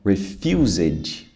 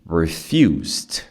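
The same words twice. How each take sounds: First: The ending is said as an extra syllable. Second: The base word is followed by a D sound. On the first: The speaker calls it wrong. "Muita gente fala, né? Refused. Não" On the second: The speaker calls it right. "a palavra base é refuse. E aí o som de D"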